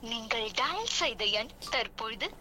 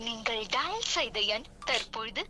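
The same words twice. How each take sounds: The two takes are said the same way.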